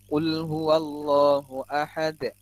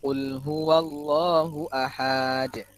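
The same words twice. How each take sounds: First: The ending is kept short. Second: The ending is drawn out long. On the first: The speaker calls it right. "Enggak panjang kan di akhirnya. Pendek kan?" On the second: The speaker calls it wrong. "Panjang akhirnya"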